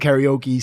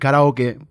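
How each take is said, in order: First: The word ends in a long 'ee' vowel. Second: The word ends in a short 'eh' vowel. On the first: This is how Americans say it. "we call it karaoke, ... We just like that e sound" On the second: This is how it is said in Japan. "It's actually karaoke"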